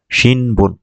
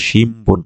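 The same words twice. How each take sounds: First: শিনবুন said with a clear n before b; the naive reading শিনবুন with n; spelled Shinbun, wrong reading. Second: শিমবুন with the n turned to m before b; শিমবুন pronounced shim-bun; correct Shimbun. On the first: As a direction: read শিনবুন letter by letter as n-b. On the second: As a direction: say শিমবুন with lips closed, m-b. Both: Shown as a demonstration. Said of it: "কিন্তু এটা উচ্চারণ হবে শিমবুন".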